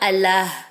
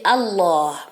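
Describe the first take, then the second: First: The l sound is light and thin. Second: The l sound is deep and heavy. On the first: The speaker calls it wrong. "On dit pas" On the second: The speaker calls it right. "il est emphatique. Ça veut dire qu'il est grave"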